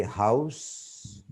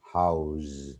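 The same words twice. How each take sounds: First: HOUSE ending in a sharp s; "house" with a hissed s ending; noun pronunciation. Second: HOUSE ending in a voiced z; "house" with a buzzing z, pitch lower; verb pronunciation. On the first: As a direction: say "house" as the noun, voiceless s at the end. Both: Shown as a demonstration. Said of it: "when we just change the word class".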